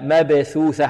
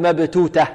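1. كلا الحرفين الأوسطين صوت th خفيف. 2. كلا الحرفين الأوسطين صوت t قوي. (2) "لا نقول مبتوتة"

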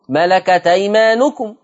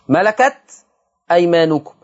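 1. تُحذف الهمزة، وتتصل الكلمتان. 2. تُنطق الهمزة قبل الكلمة الثانية.

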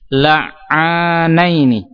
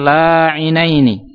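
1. Setelah bunyi ain ada vokal 'a' panjang. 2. Setelah bunyi ain ada vokal 'i'. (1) "tapi la'anaini. Alifnya itu setelah huruf ain" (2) "bukan la'inaini"

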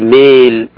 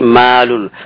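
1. الألف الطويلة مُمالة نحو e. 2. الألف الطويلة a مفتوحة خالصة.

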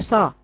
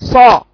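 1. صوت الصاد رفيع وخفيف. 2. صوت الصاد تخين وثقيل. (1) "ما بقولش صا" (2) "صوته تخين"

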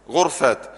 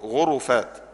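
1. بعد الراء لا حركة. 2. بعد الراء ضمة. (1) "وينفع اسكنها" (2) "بضم الراء"

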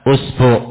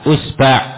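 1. Kedua vokalnya u. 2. Vokal pertama u, vokal kedua a. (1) "Sama-sama dhammah" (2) "Depan dhammah, belakang fathah"

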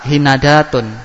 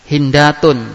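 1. Setelah n ada vokal a. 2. Setelah n tidak ada vokal. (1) "Yang ketiga fathah"

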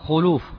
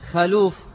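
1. الصوت الأول هو صوت 'u' مدوّر. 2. الصوت الأول هو صوت 'a' مفتوح. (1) "يرى أنها تنطق بالضم" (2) "تنطق بالفتح"

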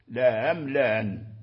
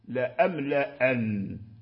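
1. كلتا الهمزتين مسهَّلتان. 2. كلتا الهمزتين محقَّقتان. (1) "تسهيلهما معا" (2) "تحقيقهما معا لا أملأن كسائر القراء"

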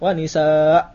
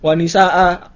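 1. Kata ini dipotong pendek tanpa vokal akhir. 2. Vokal akhir setelah hamzah dipanjangkan. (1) "tidak pakai mat iwat" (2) "harus wanisa'a"

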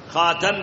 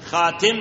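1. الحركة بعد التاء هي 'a'. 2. الحركة بعد التاء هي 'i'. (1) "بفتح التاء" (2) "بكسر التاء"

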